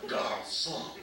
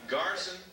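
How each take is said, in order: First: It is said with a French-style pronunciation. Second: It is said with an English-style pronunciation. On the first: The speaker calls it right. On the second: The speaker calls it wrong.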